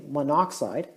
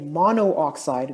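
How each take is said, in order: First: The o before oxide is dropped. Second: The o before oxide is kept and said. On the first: The speaker calls it right. "we just say monoxide" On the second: The speaker calls it wrong. "We don't say monooxide"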